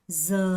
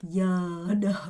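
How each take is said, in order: First: The consonant is a buzzing z sound. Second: The consonant is a gliding y sound. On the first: This is the northern pronunciation. The speaker calls it wrong. "제가 잠시 북부로 잘못, 잘못 발음했습니다" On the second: This is the pronunciation being taught. The speaker calls it right. "여러입니다. 여러. 여러. 이렇게 발음하셔야 됩니다"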